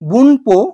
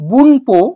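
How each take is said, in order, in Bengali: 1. 'po'-এর আগে n দিয়ে উচ্চারণ করা হয়। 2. 'po'-এর আগে n দিয়ে উচ্চারণ করা হয়।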